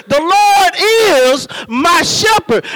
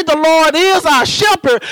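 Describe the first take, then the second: First: The Lord is my shepherd with LORD lifted high and a pause before is my shepherd; deliberate emphatic phrasing. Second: Said in the usual way. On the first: Shown as a demonstration. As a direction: stress LORD, pause, then land hard on shepherd. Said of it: "I'm gonna say it this way". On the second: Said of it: "So I'm not gonna say".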